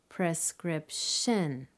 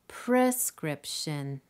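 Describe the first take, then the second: First: The stress is on the third syllable. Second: The stress is on the first syllable.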